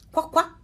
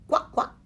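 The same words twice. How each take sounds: First: "Qua, qua!" quacked high and loud; a mother duck's loud, high quack; loud quacking call. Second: Whispered duck quack; a breathy, unvoiced "Qua, qua"; soft quacking. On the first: Acted. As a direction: call the ducklings in with a big quack. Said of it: "disse a tutti i piccoli". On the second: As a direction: quack softly like a mother duck. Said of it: "disse l'anatra".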